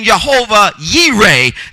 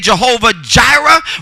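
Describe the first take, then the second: First: The second word begins with a Y sound. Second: The second word begins with a J sound. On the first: The speaker calls it right. "we really should be saying Jehovah Yireh. There is no J in Hebrew, is a Y" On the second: The speaker calls it wrong. "When we say Jehovah Jireh"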